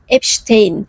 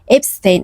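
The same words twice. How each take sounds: First: The name is said with the German-based ending. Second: The name is said the usual everyday way. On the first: The speaker calls it right. "Doğrusunun Epstein olduğunu söylemek isterim" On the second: The speaker calls it wrong. "Epstein diyoruz ama"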